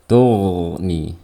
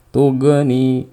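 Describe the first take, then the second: First: The gh sound flows on continuously. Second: The gh sound ends with a bouncing echo. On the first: The speaker calls it right. "Jadi alirkan suaranya" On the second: The speaker calls it wrong. "Atau dikolkolakan"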